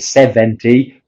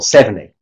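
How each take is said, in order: First: The t sound is clearly pronounced. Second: The t sound is dropped. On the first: The speaker calls it wrong. "why we don't say seventy" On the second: The speaker calls it right. "but we say ... The t and the d will disappear"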